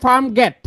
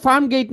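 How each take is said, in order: First: গেট pronounced "get", a plain short e; farm গেট with গেট rhyming with "set"; correct vowel demo. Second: গেট pronounced "geit", gliding from e to i; farm গেট said like English "farm gate"; wrong vowel demo. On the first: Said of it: "শব্দটা হচ্ছে farm গেট". (গেট-এ ই-ধ্বনি ছাড়া ছোট এ) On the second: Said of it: "শব্দটা কিন্তু farm গেট না". (গেট-কে টেনে "গেইট" বলা) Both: Shown as a demonstration.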